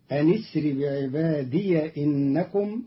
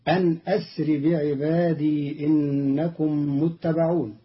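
First: أنِ اسر joined with a kasra on the nun, بعباديَ with open ya; Qalun's reading. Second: أن أسر with a cut hamza, بعبادي ending in long i; standard reading. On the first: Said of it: "بهمزة وصل في لفظ أسر مع كسر النون". (همزة وصل وكسر النون وفتح الياء) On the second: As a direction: say أنْ أسر بعبادي plainly. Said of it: "قرأ قالون كلمتي". (أن أسر بهمزة قطع) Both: Shown as a demonstration.

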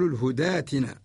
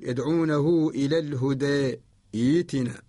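First: الهداتنا in one word with an open long aa; no break and no e colour in الهداتنا; joined reading. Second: الهدى and ائتنا separated, with e then long i; imala at pause. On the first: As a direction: say hudaatina straight through for الهداتنا. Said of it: "نقول". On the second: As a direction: stop on الهدى as hudee, then restart ائتنا as iitina. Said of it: "نقرأ بالإمالة وقفا". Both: Shown as a demonstration.

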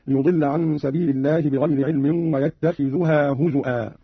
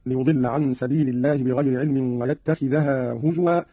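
First: ويتخذها as yattakhidhuhā, هزوا as huzu'ā; slow, with "dhu" in ويتخذها and a glottal stop in هزوا; Qalun reading. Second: Said in the usual way. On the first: Shown as a demonstration. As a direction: damma on the dhal of ويتخذها, hamza in هزوا. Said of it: "قرأ بهمز الواو فيه هزوا هكذا". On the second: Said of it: "قرأ قالون بضم الذال رفعا".

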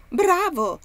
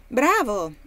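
First: Higher, much louder delighted shout. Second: Loud pleased exclamation; a hearty well-done; exclaiming. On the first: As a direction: yell your approval across the room. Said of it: "gridò Haley". (grido entusiasta, più acuto e molto più forte) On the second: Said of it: "esclamò Haley". (esclamazione forte e compiaciuta) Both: Acted.

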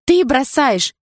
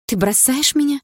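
First: High, loud exclamation; outraged girlfriend's shout; loud accusation. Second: High, rising shocked question; stunned, hurt girlfriend; disbelieving question. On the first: Acted. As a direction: hurl it back as an accusation. Girlfriend accuses boyfriend of leaving. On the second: A narrator's reading. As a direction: ask in high-pitched disbelief. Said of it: "не веря своим ушам".

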